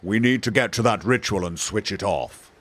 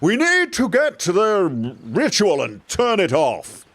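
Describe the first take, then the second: First: The voice is calm, quiet and unstrained. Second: The voice is raised and projected loudly. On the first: The speaker stays cool and suave. The speaker calls it wrong. "You're not going to be like" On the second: The speaker is shouting over a battle's noise. The speaker calls it right. "you're going to raise your voice"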